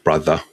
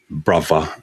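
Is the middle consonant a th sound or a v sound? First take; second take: th sound; v sound. First: The middle th is said as th. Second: The middle th is said as a v. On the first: It marks a standard speaker. "instead of brother" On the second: It marks a Cockney speaker. "T H fronting, so using brother"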